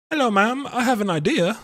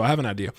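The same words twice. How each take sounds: First: High, lightly put-on posh British accent; a mock upper-class British accent, pitched up. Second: Said in the usual way. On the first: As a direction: play at being a posh Brit greeting a mogul. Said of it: "Why are you speaking in that accent?". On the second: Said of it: "Anyway, so I have an idea".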